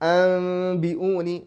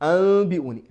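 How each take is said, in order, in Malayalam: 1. b-ക്ക് മുമ്പ് നേരിയ നാസൽ m കേൾക്കുന്നു. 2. b-ക്ക് മുമ്പുള്ള നാസൽ m ശബ്ദം ഒഴിവാകുന്നു. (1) "ഇത്ബാഖ് സംഭവിക്കുന്നുണ്ട്, പക്ഷേ കസ് സംഭവിക്കാൻ പാടില്ല" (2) "അബി ഊനി രണ്ടും തെറ്റാണ്"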